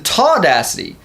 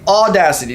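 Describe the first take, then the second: First: The word begins with an added t sound. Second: The word begins directly with the vowel. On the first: The speaker calls it wrong. "Jason Burns says the taudacity" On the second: The speaker calls it right. "There's no T, there's no R"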